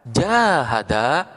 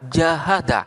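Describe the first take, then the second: First: The first vowel is held long. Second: The first vowel is kept short. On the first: "memanjangkan harkat fathah" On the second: "maknanya berbeda"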